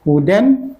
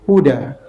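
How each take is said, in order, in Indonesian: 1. Kata ini berakhir dengan bunyi -an. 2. Kata ini berakhir dengan vokal a panjang.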